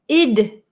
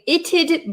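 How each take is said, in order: First: The T is left out completely. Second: A clear T is followed by a D. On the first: "So this is not I'd, but id" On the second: "it's a little bit uncommon to hear the t and then the d sound"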